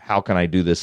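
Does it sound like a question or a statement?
statement. It sounds like a flat declarative statement.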